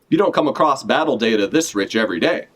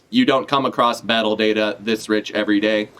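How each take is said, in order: First: It is said in a Western cowboy accent. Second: It is said in a mechanical robot voice. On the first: The speaker calls it wrong. "Pythagoras doesn't have a, a Western accent" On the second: The speaker calls it right. "I'm gonna do a robo voice for this guy"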